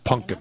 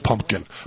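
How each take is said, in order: First: The word is said in a folksy, rural way. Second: The word is said in the standard way. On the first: This is how the speaker was brought up to say it. "the way I say it is pumpkin" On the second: This is the usual form of the word. "I didn't even know at that point that the word was pumpkin"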